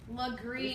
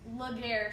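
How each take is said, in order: First: The name is said like 'Legree'. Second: The name is said like 'Laguerre'. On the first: The speaker calls it right. "It's actually Legree" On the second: The speaker calls it wrong. "I would say Laguerre Street"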